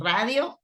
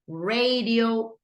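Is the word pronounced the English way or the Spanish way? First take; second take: Spanish; English. First: The word is pronounced with Spanish sounds. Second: The word is pronounced with English sounds. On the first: "Radio, Spanish" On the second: "Radio, English"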